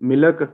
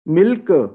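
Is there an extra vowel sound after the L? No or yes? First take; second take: yes; no. First: An extra weak vowel follows the L sound. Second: The L goes straight into the K sound. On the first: The speaker calls it wrong. "वो एल के बाद आगे शुआ डाल देते हैं" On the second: The speaker calls it right. "लेकिन है मिल्क"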